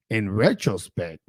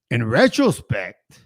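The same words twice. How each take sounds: First: "in retrospect" repeated lower and softer, to himself; quieter, lower repeat. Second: "in retrospect" drawn out slowly; slow musing. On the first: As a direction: murmur "in retrospect" a second time as an aside. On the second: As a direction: ease into "in retrospect" like a thought forming. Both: Real, not acted. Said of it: "I think he would have".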